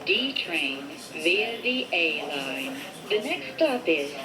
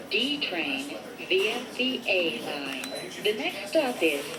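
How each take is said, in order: Both takes have the same delivery.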